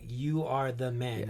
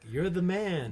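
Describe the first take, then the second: First: It sounds like a stern, grave accusation. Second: It sounds like casual, admiring praise.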